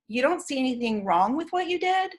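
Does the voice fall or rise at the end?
rise. The pitch rises at the end like a question. It implies judgment of the listener. The speaker calls it wrong. "the inflection of asking it as a question um, implies judgment"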